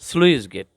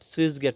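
First: The first word starts with s then l. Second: The first word starts with s, no l. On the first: The speaker calls it right. "এটা হবে স্লুইস gate" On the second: The speaker calls it wrong. "অনেকে বলে সুইস gate, সুইস gate না"

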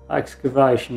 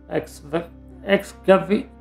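First: The word has no extra syllable in the middle. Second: The word has an extra syllable in the middle. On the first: The speaker calls it right. "Excavation, it's called" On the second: The speaker calls it wrong. "Can't even pronounce it"

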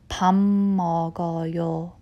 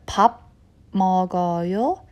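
First: The first word ends with an m sound. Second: The first word ends with a b sound. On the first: The speaker calls it right. "it's pronounced as 밥 먹어요" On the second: The speaker calls it wrong. "instead of 밥 먹어요"

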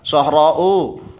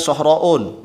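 First: The word ends on a vowel, no n. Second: The word ends with an added n sound. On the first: The speaker calls it right. "ini ada alif mamdudah" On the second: The speaker calls it wrong. "nggak boleh dibaca sohra'un"

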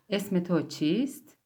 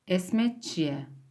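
First: Every word is pronounced fully and carefully. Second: The words are shortened and run together. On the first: This is the formal or written form. "Esmetçiye esmetoçist demek" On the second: This is the everyday spoken form. "daha günlük konuşmalarda ya da dizilerde, filmlerde böyle şeyleri duyabilirsiniz"

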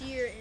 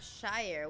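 First: The vowel sounds like 'ee'. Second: The vowel sounds like 'eye'. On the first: This is how the place name is actually said. The speaker calls it wrong. "It's Sheer instead of Shire" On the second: This is how the spelling suggests it is said. The speaker calls it right. "I prefer Shire"

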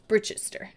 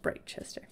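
First: The first syllable sounds like 'brit'. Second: The first syllable sounds like 'bright'. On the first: The speaker calls it right. "I kind of chunked it off as Brit" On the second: The speaker calls it wrong. "Rather than Brightchester"

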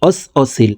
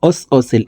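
Both takes have the same delivery.

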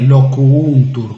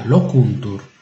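First: The u after 'loc' is doubled and long. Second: The u after 'loc' is single and short. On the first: The speaker calls it wrong. "non è locuuntur con due u" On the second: The speaker calls it right. "è solo una"

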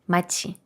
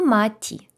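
First: The final syllable begins with a ch sound. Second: The final syllable begins with a plain t sound. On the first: The speaker calls it right. "Цікавіше буде сказати мачі" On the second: The speaker calls it wrong. "Написано маті. Але ні"

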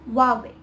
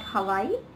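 First: The word sounds like 'Hwah-way'. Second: The word sounds like 'Hawaii'. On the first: The speaker calls it right. "it's Huawei" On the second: The speaker calls it wrong. "and it is not Hawaii"

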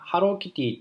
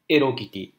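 First: The name starts with an h sound. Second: The name starts with no h sound. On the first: "ハローキティっていう風に呼ばれています" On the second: "フランス人からするとエロキティ"

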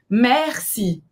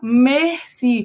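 First: The first vowel is an open e sound. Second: The first vowel is a closed e sound. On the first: The speaker calls it right. "A gente fala merci. É aberto esse E" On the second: The speaker calls it wrong. "um erro muito comum de pronúncia nesta palavra é falar merci, como se tivesse um acento circunflexo no E"

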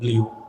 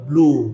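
First: The vowel has a y-glide, like 'bliu'. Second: The vowel is a plain 'oo', like 'bloo'. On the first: The speaker calls it wrong. "সবাই এটাই বলবে ব্লিউ" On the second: The speaker calls it right. "এটা শুদ্ধ উচ্চারণ হবে ব্লু"

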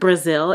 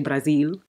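First: It is said with an American pronunciation. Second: It is said with a local, native pronunciation. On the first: The speaker calls it wrong. "the way we say stuff is just so stupid" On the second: The speaker calls it right. "is actually"

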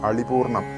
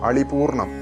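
No difference in how they are said.

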